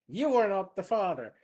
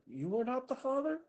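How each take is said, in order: First: It sounds like a certain, flat announcement. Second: It sounds like a confused, concerned old man.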